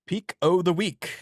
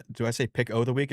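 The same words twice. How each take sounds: First: A bad stab at an Irish lilt on Peak o' the week; failed Irish accent. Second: Said in the usual way. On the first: Shown as a demonstration. Cohost attempting an Irish accent on the pick of the week, badly faked Irish accent. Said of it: "I can't even do a fucking Irish accent". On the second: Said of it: "do I say pick o' the week".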